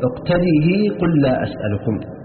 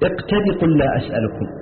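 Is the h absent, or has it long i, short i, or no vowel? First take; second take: long i; absent. First: The final h takes a long i vowel. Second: The final h is dropped entirely. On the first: "بإثباتها مكسورة مع الإشباع وصلا" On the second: "يحذفونها وصلا"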